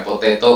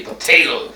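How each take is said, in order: First: Said in the usual way. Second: North American accent. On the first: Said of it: "jadi bukan potato". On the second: Shown as a demonstration. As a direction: say "potato" in North American style, flapping the last t. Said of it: "tapi potato".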